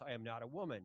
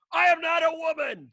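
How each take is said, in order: First: Quiet, low, half-swallowed protest; muttered under breath. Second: High, loud, hammed-up protest; mock indignant shout. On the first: Retold or imitated. Telling friends what he wouldn't yell at the restaurant. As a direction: say it softly, just to yourself. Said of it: "Christians aren't supposed to yell". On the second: Retelling what he wanted to yell at the waiter. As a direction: blurt it out, offended and mock-outraged. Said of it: "I was like".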